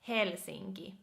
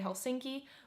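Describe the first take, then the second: First: The name is said with a Finnish accent. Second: The name is said with an English accent. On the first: "how you would pronounce this in a Finnish way would be Helsinki" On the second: "in English you would say Helsinki"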